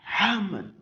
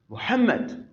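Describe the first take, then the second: First: The name is shouted at full force. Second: The name is said loudly but without shouting. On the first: The teacher seems to have lost control. The speaker calls it wrong. "but don't say Muhammad" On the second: The teacher stays calm and in control. The speaker calls it right. "do so in a loud voice, but don't shout"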